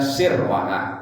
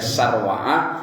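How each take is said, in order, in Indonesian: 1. Suku kata pertama memiliki vokal "i". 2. Suku kata pertama memiliki vokal "a". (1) "dengan sinnya kasroh" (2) "bisa dibaca sarwa'ah"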